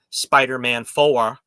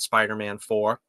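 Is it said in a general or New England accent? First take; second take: New England; general. First: It is said in a New England accent. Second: It is said in his usual general accent.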